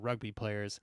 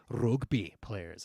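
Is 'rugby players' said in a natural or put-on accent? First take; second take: natural; put-on. First: It is said in the speaker's ordinary accent. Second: It is said in an imitated foreign accent.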